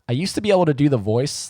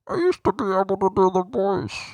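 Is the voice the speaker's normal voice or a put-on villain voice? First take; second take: normal; villain voice. First: It is said in a normal speaking voice. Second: It is said in a put-on villain voice.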